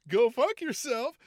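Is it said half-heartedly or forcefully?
half-heartedly. It is said weakly, without commitment.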